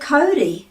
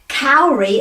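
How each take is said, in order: First: The word has a Māori pronunciation. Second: The word has an anglicized English pronunciation. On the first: The speaker calls it right. "instead of Cody" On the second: The speaker calls it wrong. "the habits of generations of people before us who said Kauri"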